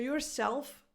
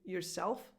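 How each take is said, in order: First: Your is said fully, with its whole vowel. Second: Your is reduced and the stress is on self. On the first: "yourself gets reduced to" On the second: "The stressed part is self"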